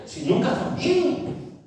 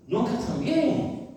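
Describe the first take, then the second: First: High, slow, breathy mocking whine. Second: High, slow mocking echo of the whine. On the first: Preacher mocking people who are never well, in a high slow whine. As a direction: sneer at the chronic complainers. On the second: Preacher repeats the complainers' lament in a slow high voice. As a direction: drag it out again, teasing.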